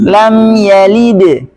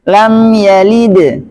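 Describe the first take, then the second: The two takes are said the same way.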